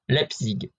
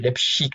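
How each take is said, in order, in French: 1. Le nom est prononcé avec soin, avec un effort délibéré. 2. Le nom est prononcé de façon relâchée, plus négligée. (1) "je vais essayer de bien le dire ... Je crois que je l'ai jamais aussi bien dit" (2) "Avant, c'était Leipzig ... c'est pas comme ça qu'on dit"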